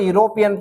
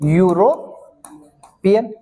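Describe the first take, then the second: First: The word begins with a plain vowel sound. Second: The word begins with a 'y' sound. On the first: The speaker calls it wrong. "गलती से" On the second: The speaker calls it right. "राइट pronunciation"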